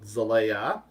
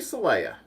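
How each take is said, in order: First: The name begins with a buzzing z sound. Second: The name begins with a hissing s sound. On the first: "I want to say Zalayan and call it Zalea" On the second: "They say it like it's spelled with an S"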